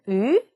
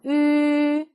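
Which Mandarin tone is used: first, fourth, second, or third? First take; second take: second; first. First: The pitch rises like a question. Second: The pitch stays high and level. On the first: "이성" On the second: "일성"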